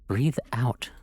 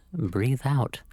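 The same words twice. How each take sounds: First: Calm whispered breathing cue. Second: Said in the usual way. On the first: Shown as a demonstration. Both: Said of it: "Follow my instructions".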